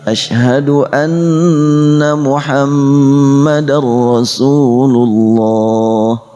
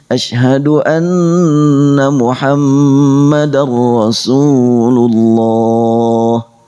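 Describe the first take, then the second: No difference in how they are said.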